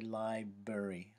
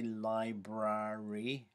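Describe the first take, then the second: First: One of the similar syllables is dropped. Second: Both similar syllables are pronounced in full. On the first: "We tend to say library" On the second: "We don't say library"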